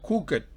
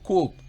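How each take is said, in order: First: The ending is said as an extra syllable. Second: The ending is said as a single consonant. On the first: The speaker calls it wrong. "no se pronuncia cooked" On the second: The speaker calls it right. "se pronuncia como cooked"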